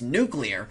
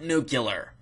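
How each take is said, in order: First: The word is said like the word nucleus. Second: The word is said unlike the word nucleus. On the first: The speaker calls it right. "It's nuclear because it has to do with the nucleus" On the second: The speaker calls it wrong. "It is not nuclear"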